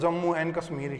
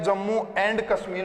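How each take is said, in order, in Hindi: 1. 'and' शब्द घटकर 'en' हो जाता है। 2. 'and' शब्द का अंत स्पष्ट d से होता है। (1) "मुख से जब इसको उच्चारित करते हैं तो उस समय" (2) "किसी के भी मुख से ये उच्चारित नहीं होता है"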